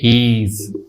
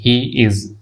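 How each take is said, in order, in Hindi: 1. दोनों शब्द जुड़कर एक हो जाते हैं। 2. दोनों शब्द अलग-अलग बोले जाते हैं।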